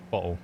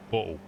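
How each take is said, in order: First: Bottle with a clear t sound; plain bottle. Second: Bottle with the t dropped, glottal stop; Cockney bottle. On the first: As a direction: say bottle normally, t pronounced. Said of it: "I would say bottle or bottle". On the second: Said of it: "slightly co-, Cockney accent there". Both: Shown as a demonstration.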